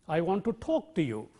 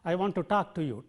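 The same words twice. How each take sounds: First: The vowel in talk has rounded lips. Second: The vowel in talk has unrounded, spread lips. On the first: The speaker calls it right. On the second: The speaker calls it wrong.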